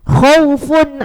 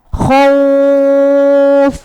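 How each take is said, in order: First: The vowel is short and runs straight on. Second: The vowel is lengthened and the word ends there. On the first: The reader does not stop on this word. "Khaunya kan berarti tidak panjang" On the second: The reader stops on this word. "ketika wakof baru dibaca panjang"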